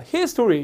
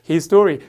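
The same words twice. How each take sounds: First: The stress falls on the first part, his. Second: The stress falls on the second part, story. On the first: It means history. "역사" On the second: It means that man's story. "그 사람의 이야기"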